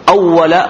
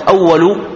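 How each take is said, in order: First: أول as awwala, final a; fatha ending. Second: أول as awwalu, final u; damma ending. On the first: Teacher quotes one narration's wording, fatha ending. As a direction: end أول on an open a. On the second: Teacher quotes another narration's wording, damma ending. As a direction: end أول on a u vowel. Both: Shown as a demonstration. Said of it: "وفي بعض الروايات".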